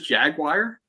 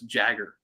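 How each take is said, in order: First: The word is pronounced fully as jaguar. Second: The word is shortened to sound like jagger. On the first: "You know his is Jaguar" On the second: "whoever does the voice acting for him says Jagger"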